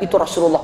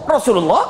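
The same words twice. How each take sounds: First: Said in the usual way. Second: Sharply rising, startled echo; acted disbelief, voice swooping up at the end; shocked question. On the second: Woman learning she rebuffed the Prophet, shocked question.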